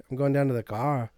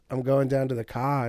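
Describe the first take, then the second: First: Kiwi vowels on "going down to the car"; New Zealand accent. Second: Australian vowels on "going down to the car"; Australian accent. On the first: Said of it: "and we're like". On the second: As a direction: say "I'm going down to the car" the Aussie way. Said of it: "Jermaine's way of explaining". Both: Shown as a demonstration.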